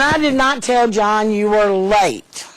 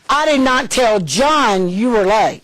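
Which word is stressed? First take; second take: late; John. First: The word late carries the strongest stress. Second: The word John carries the strongest stress. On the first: Something other than lateness was said. "I told him something else about you" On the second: Someone other than John was told. "I told somebody else who's over John"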